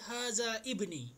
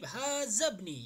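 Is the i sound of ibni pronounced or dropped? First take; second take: pronounced; dropped. First: The i sound of ibni is pronounced separately. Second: The i sound is dropped and the words join. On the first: The speaker calls it wrong. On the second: The speaker calls it right.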